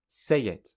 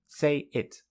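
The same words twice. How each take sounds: First: A y sound joins the two words. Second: The two words are said separately. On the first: "with linking" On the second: "without linking"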